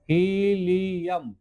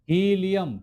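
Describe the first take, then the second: First: helium stretched out slowly, syllable by syllable; slow careful pronunciation. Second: Said in the usual way. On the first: Shown as a demonstration. Teacher models helium slowly for students, drawn out. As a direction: drag helium out so students can repeat it. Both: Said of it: "आप इसका नाम लीजिए".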